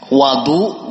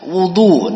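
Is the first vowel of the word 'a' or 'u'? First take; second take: a; u. First: The first vowel is an open 'a' sound. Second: The first vowel is a rounded 'u' sound. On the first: It refers to the water used for ablution. "bisa dibaca wadu, wa yang di fathah" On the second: It refers to the act of performing ablution. "dibaca wudu dengan wawu yang di dhammah"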